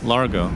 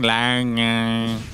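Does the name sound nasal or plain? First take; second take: plain; nasal. First: The name is said in a plain voice. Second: The name is said with a nasal sound.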